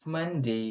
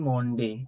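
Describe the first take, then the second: First: The first vowel is an open 'uh' sound. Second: The first vowel is a rounded 'o' sound. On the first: The speaker calls it right. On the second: The speaker calls it wrong. "মানডে আমরা বলি মন্ডে, কিন্তু এটা মন্ডে নয়"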